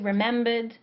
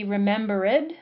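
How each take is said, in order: First: The ending is joined to the word, three syllables. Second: The ending is a separate syllable, four syllables.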